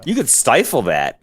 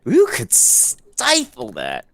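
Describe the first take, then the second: First: Said in the usual way. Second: Half-speed, stretching the start of "stifle"; drawn-out emphasis. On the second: Acted. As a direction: hold the "s" of "stifle" long and slowly. Repeats the line, exaggerating stifle.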